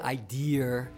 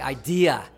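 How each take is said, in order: First: The word is said with a Connecticut accent. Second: The word is said without the Connecticut accent. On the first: The speaker calls it wrong. "That's Connecticut talk. ... you don't say idea" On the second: The speaker calls it right. "you say idea"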